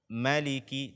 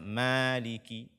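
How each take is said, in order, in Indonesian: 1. Vokal pertama pendek. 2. Vokal pertama panjang. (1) "ma-nya pendek" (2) "tidak boleh dibaca maliki"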